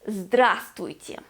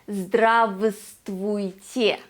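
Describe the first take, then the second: First: One of the v sounds is dropped. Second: Both v sounds in the word are pronounced. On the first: The speaker calls it right. "We say здравствуйте" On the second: The speaker calls it wrong. "We do not say здравствуйте"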